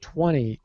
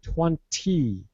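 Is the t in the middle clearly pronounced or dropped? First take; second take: dropped; pronounced. First: The middle t is dropped, sounding like twenny. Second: The middle t is clearly pronounced. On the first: "that is the relaxed speech" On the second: "most people in North American English will not say twenty"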